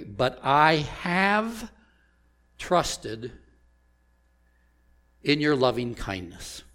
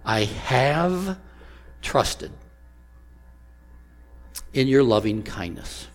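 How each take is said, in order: First: "have" drawn out, slow and leaned on; "But I have" stretched, the word "have" held; stress on have. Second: "have" lifted and held before "trusted"; stress on have. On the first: Preacher reading his text to the congregation, leaning on "have". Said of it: "I emphasized the word have". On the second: Preacher repeating the verse to the congregation, lifting "have". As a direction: lean on "have" so the past tense lands. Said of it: "you noticed in the emphasis". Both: Shown as a demonstration.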